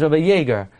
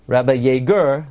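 First: Said in the usual way. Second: "Yeager" stressed on its last syllable, yay-GUR; wrong-syllable stress. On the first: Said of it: "His name is". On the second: Shown as a demonstration. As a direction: misplace the stress in "Yeager" onto "-ger". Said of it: "you're not gonna call".

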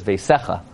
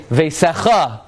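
First: "veisecha" with the stress on the middle syllable, SE; correct pronunciation. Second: "veisecha" with a misplaced, raised stress on the last syllable; mispronounced reading. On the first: Rabbi giving the right word, "veisecha" stressed on SE. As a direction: say "veisecha" low, ending unstressed. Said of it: "There's also no word veisecha". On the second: Rabbi showing what people say wrong, "veisecha" with end stress. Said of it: "And then they say". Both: Shown as a demonstration.

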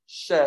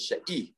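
First: "she" as one short syllable, like "sheh"; "she" with a single short vowel; mispronounced vowel. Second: "she'i" in two syllables, "sheh-EE"; "she'i" with a separate long ee after "she"; corrected pronunciation. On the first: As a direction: say "she" without the extra ee. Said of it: "not, it's not she". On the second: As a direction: add a clear ee to "she'i". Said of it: "has to be pronounced she'i oichel". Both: Shown as a demonstration.

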